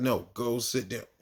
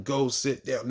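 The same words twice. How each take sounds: First: "No, go sit down" slowed, with NO leaned on; stern teacher repeating an order, slower; firm repeat, slower. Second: Said in the usual way. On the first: Retold or imitated. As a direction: repeat it slower and firmer, like a teacher's final word. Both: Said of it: "even though I'm telling them".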